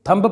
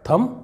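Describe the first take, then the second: First: The word ends with an audible b sound. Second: The word ends in m with no b. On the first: The speaker calls it wrong. "कई लोग इसे थंब पढ़ते हैं" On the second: The speaker calls it right. "जबकि यह है थम"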